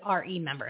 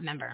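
First: The first syllable is clearly pronounced. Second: The first syllable is dropped entirely. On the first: The speaker calls it right. "it's RE member" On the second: The speaker calls it wrong. "not member. I'm sorry, kind of blending and slurring"

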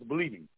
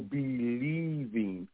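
First: It is said quickly, run together as one word. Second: It is said slowly, split into two words. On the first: "when you say it fast" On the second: "I slowed down"

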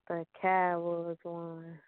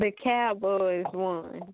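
First: It is said flatly, with little energy. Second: It is said with lively, excited energy. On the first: The speaker calls it wrong. "Why you got to say it so dry?" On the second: The speaker calls it right. "put a little more excitement in your voice"

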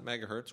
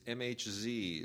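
First: The name is said as the word megahertz. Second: The name is spelled out letter by letter. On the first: The speaker calls it wrong. "It's not megahertz" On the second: The speaker calls it right. "It is MHZ"

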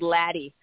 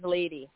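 First: The first vowel is short, as in 'lad'. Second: The first vowel is long, as in 'lay'. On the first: The speaker calls it wrong. "I get called Laddie quite a bit" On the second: The speaker calls it right. "But it is Lady"

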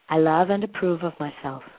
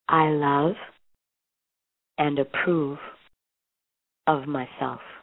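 First: The sentence is spoken at a quick pace. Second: The sentence is spoken at a slow pace. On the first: "I'm going to say it once quickly" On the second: "let's say it together slowly"

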